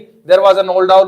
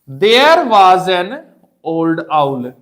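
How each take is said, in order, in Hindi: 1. वाक्यांश सीधे अगले शब्दों में जल्दी से मिला दिया गया है। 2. वाक्यांश धीरे पढ़ा गया है और कुछ ज़ोर के साथ। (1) "ऐसे नहीं" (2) "थोड़ा स्ट्रेस स्लो ऐसे करना"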